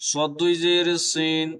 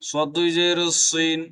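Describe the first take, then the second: No difference in how they are said.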